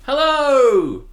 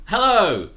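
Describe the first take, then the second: First: Much higher, louder, gushing hello; passionate hello. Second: Said in the usual way. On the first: Shown as a demonstration. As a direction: throw real passion into the greeting. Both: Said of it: "really passionate about the second hello".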